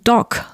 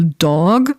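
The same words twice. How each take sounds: First: The word ends with a voiceless k sound. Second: The word ends with a voiced g sound. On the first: "you just don't use voicing here" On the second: "they will not say"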